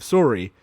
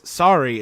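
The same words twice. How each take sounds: First: It is said with a Canadian accent. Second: It is said without a Canadian accent.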